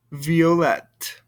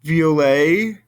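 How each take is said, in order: First: "violette" ending in a clear T; "violette" with the T pronounced; feminine violette. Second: "Violet" ending on the vowel, no T; "Violet" with a silent T; masculine violet. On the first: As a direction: say "violette" and sound the T. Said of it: "but I do over here". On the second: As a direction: say "Violet" and drop the T. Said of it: "I don't hear the T sound over here". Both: Shown as a demonstration.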